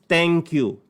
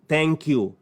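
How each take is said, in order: No difference in how they are said.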